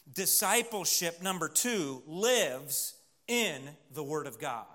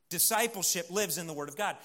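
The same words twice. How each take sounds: First: Slow, spaced-out delivery; slow emphatic point. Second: Said in the usual way. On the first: Real, not acted. Preacher announcing the second point to his congregation, slow and emphatic. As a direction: lay it out slowly, phrase by phrase.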